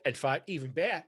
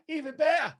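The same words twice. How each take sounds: First: Said in the usual way. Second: "even better" leapt very high, then falling; "even better" in a high, thrilled pitch jump; excited upswing. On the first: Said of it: "repeats phrase". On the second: Shown as a demonstration. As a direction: squeal "even better" as the idea grows. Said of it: "repeats phrase with lift".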